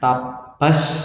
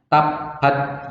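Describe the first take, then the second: First: The final t becomes a strong s. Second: The final t has no hiss at all. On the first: "Tapi nggak boleh dibaca S banyak" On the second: "Salah kalau baca nggak ada S-nya, nggak ada hamsnya"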